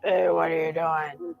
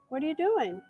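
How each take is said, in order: First: It is said in a put-on dog voice. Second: It is said in her ordinary voice.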